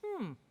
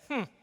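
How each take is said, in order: First: The hmm sounds curious and interested. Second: The hmm sounds frustrated and dismissive. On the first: The person wants to figure out the problem. The speaker calls it right. "lean in and go like this" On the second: The person is giving up on the problem. The speaker calls it wrong. "when you feel frustrated, instead of leaning back and going like this"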